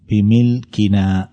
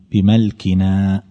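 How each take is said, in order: First: The vowel after the m is 'i'. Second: The vowel after the m is 'a'. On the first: "بالكسر" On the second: "بفتح الميم"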